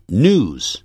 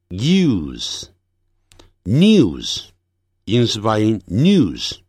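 First: News as "nooz", no glide; American "news" with plain oo; American pronunciation. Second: News as "nyooz", y glide; British "news" with a yoo sound; British pronunciation. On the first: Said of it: "美式发音". (美式发音，news不带一音) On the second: (英式发音，news带一音) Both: Shown as a demonstration.

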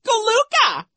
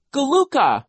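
First: Very high, loud mocking squeal; Nero squealing. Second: High, loud little shriek; Sonny shrieking. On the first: Vice principal parrots the little sister, squealing mockery. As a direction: parrot the baby word in falsetto. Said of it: "he squealed". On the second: Little sister backs up her siblings, shrieking. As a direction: shriek the baby word. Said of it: "Sonny shrieked". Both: A narrator's reading.

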